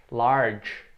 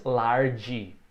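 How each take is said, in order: First: Large ending on a bare consonant, no vowel; correct dry ending. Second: Large said as larg-i with a vowel at the end; wrong extra vowel. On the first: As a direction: model large with a clean final sound. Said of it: "da consoante somente". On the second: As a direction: show the Brazilian error on large. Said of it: "a gente não diz". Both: Shown as a demonstration.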